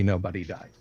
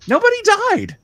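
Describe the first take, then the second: First: Said in the usual way. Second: High, loud, cheery announcement; happy voice. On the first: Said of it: "at least not permanently". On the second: Shown as a demonstration. Game master announcing the party survived, happy voice. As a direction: proclaim it brightly up high. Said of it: "that was my happy voice".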